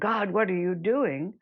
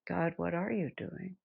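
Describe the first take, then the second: First: It sounds accusing and angry. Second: It sounds open and genuinely curious. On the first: It is a complaint against how things are. "instead of saying" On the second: It is a sincere question seeking understanding. "We start saying"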